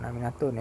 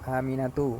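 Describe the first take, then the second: First: The name ends with an added n sound. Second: The name ends on a vowel, no final n. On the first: The speaker calls it wrong. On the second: The speaker calls it right.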